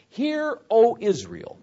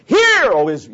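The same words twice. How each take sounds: First: High, measured call from scripture; scripture reading. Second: Loud, higher-pitched yelled summons. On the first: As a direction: read it out as a solemn summons. Reads the verse aloud. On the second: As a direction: yell it to grab everyone's attention. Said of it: "that's the yell". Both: Shown as a demonstration.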